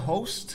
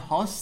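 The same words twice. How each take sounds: First: The vowel is a rounded 'oh' sound. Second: The vowel is an open 'ah' sound. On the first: The speaker calls it right. "میزبان میشه هاست" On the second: The speaker calls it wrong. "اشتباهی اکثرا تلفظ میکنن هاست"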